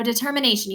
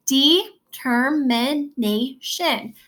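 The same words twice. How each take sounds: First: Said in the usual way. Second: "Determination" very slowly, each syllable separate. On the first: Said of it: "have your hand under your jaw". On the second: Shown as a demonstration. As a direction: break "Determination" into five drawn-out syllables. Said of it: "How many syllables are there?".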